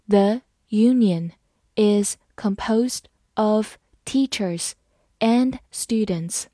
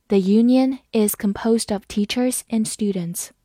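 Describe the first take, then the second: First: Slow phrase-by-phrase reading. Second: Said in the usual way. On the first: Shown as a demonstration. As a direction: break it into slow chunks. (分段慢读) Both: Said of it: "好，慢慢来读。".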